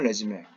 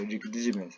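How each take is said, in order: First: It is said with three syllables, ending in 'may'. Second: It is said with two syllables, ending in 'zoom'. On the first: It is a noun meaning a career summary. "명사가 되면은 아, 레즈메가 되죠" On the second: It is a verb meaning to start again. "동사가 되면 리주메가 되죠"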